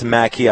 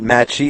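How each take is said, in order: First: The second syllable starts with a k sound. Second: The second syllable starts with a ch sound. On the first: The speaker calls it right. "it's Maki" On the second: The speaker calls it wrong. "It's not Machi"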